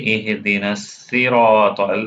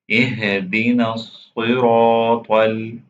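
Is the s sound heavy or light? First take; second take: light; heavy. First: The s sound is light and thin. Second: The s sound is heavy and deep. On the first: The speaker calls it wrong. "then you're not pronouncing swad" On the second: The speaker calls it right. "You have to make this letter heavily"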